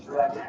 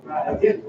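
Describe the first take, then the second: First: "Dragon" with an open E vowel in the first syllable. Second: "Dragon" stressed on DRAG, the second syllable light and short. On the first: Choir director modelling the vowel for singers, open E. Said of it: "more of like an open E". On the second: Director showing the choir where the stress falls, light ending. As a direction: lean on the first syllable of "Dragon", drop the "gon". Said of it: "don't want to emphasize the second syllable". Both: Shown as a demonstration.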